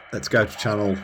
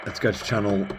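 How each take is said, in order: Both takes have the same delivery.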